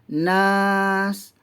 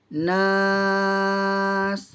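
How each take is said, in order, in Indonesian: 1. Vokal ditahan selama dua harakat. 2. Vokal ditahan selama enam harakat. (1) "Kalau dua harakat" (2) "Kalau enam harakat"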